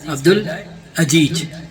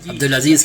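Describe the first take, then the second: First: The name is said with a j sound. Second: The name is said with a z sound. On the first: The speaker calls it wrong. "सब जा है" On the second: The speaker calls it right. "Abdul अजीज के बजाय"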